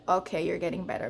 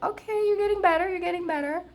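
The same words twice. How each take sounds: First: Said in the usual way. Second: High cooing pet voice, quick; high sing-song baby talk for a pet; baby talk to dog. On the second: Retold or imitated.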